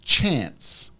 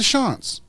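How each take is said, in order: First: The word begins with a sharp 'ch' sound. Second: The word begins with a soft 'sh' sound. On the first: This is the intended word. The speaker calls it right. "She means chants" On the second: Someone else said it this way. The speaker calls it wrong. "She was pronouncing it chants"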